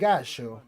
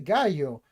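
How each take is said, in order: First: It is said with an Argentine pronunciation. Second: It is said with a non-Argentine pronunciation. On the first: The speaker calls it right. "They do say gallo" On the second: The speaker calls it wrong. "in Argentina, so they do not say gallo"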